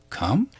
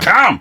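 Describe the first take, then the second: First: The voice rises like a question. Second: The voice falls like a firm command.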